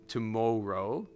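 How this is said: The O sound is drawn out long. "you will catch me doing like really long O sounds"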